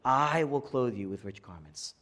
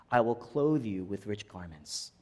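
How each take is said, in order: First: Long, leaning "I" at the start; "I" held out for emphasis; stress on I. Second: Said in the usual way. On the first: Shown as a demonstration. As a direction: stretch the word "I", then ease off. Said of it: "change the emphasis a little bit". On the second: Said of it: "I'm gonna change the emphasis".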